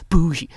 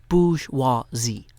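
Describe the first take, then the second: First: Bougie clipped to two syllables, pu-zhi; lazy bougie. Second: Bourgeoisie slow, in three clear syllables; every syllable. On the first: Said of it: "pronouncing every syllable in bourgeoisie". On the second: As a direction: spell it out slowly, bourgeoisie. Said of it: "three syllables". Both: Shown as a demonstration.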